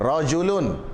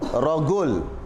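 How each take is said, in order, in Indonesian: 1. Kata ini diawali dengan bunyi j lembut. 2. Kata ini diawali dengan bunyi g keras.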